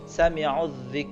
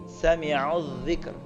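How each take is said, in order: First: The word ends without any r sound. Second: The word ends with a clear r sound. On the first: The speaker calls it wrong. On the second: The speaker calls it right.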